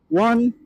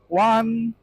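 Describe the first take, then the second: First: Closed visor, with noise reduction turned on. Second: Open visor, with noise reduction turned on. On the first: "Now we're gonna close my visor" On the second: "The microphone with noise reduction on, uh, and open visor"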